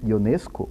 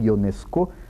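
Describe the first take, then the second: First: The name is said with Portuguese-style pronunciation. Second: The name is said with French-style pronunciation.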